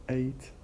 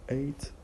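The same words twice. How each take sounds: Both takes have the same delivery.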